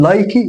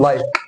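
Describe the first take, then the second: First: لايكي with a sounded ee at the end, "like-ee"; wrong final vowel. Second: لايك ending right on the k; silent final e. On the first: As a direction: voice the final e in لايكي, as a questioning mistake. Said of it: "مش لايكي". (لايكي بنطق الإي في الآخر) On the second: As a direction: drop any vowel after the k in لايك. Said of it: "لكن ده مش موجود". (لايك من غير إي في الآخر) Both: Shown as a demonstration.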